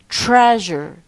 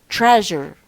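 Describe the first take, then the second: Both takes have the same delivery.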